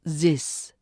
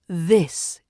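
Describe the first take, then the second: First: It begins with a z sound. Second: It begins with a voiced th sound. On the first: The speaker calls it wrong. "not zis" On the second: The speaker calls it right. "So say this"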